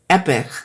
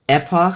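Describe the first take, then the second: First: The second syllable is reduced, like 'epic'. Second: The second syllable has a full 'och' vowel. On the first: The speaker calls it wrong. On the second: The speaker calls it right.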